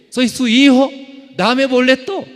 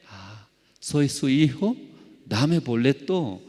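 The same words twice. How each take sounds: First: Much higher and louder, crying out to God; loud desperate plea. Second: Said in the usual way. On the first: Retold or imitated. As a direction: beg at the top of your voice. Pleading to God, retold.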